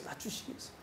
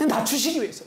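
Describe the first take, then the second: First: Whispered echo of 낮추시기 위해서, breath only. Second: Said in the usual way. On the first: Shown as a demonstration. Pastor echoing his point to the congregation, whispered. Repeats phrase, then whispers it.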